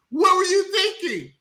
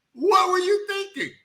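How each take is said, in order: First: High shouted "What were you thinking"; exasperated shout. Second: Same high shout, dragged out slowly; slow exasperated shout. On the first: Host berating the movie's mother, high exasperated shout. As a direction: yell at her like she lost her mind. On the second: Host repeating it to the screen, slow shouted disbelief. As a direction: stretch it out in disbelief. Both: Retold or imitated.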